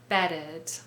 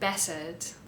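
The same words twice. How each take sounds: First: The T sound is changed into a D sound. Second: The T sound is left out entirely. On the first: "we usually change it to a D sound" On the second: "Some other examples from this video"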